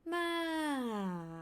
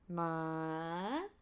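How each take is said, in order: First: The pitch falls from high to low. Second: The pitch rises from low to high. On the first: "falling from up to down" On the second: "rising from low, low to high"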